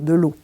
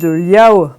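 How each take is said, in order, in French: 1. Cela se dit avec la voyelle du français standard. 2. Cela se dit avec une triphtongue gallo. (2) "et puis de liao pour"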